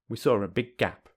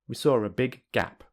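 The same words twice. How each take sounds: First: The two g sounds merge into one. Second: Both g sounds are said separately. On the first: "secondly with linking" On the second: "Firstly without linking"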